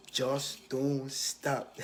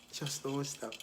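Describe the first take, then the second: First: Just don't stop, drawn out slowly and stressed; slow, weighty words of advice; slow emphatic advice. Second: Just don't stop, said softer with a laugh; soft laughing echo of the advice; laughing repeat. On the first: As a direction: lean hard on don't and stretch it. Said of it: "But yeah". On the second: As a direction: repeat it softly, chuckling. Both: Shown as a demonstration.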